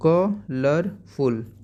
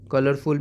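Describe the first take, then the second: First: colourful in three slow beats, ka... lar... ful; split into syllables. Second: Said in the usual way. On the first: Shown as a demonstration. Teacher modelling for pupils, syllable by syllable. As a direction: stretch colourful, pausing after ka and lar. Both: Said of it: "you can say here like".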